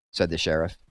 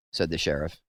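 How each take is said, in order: Both takes have the same delivery.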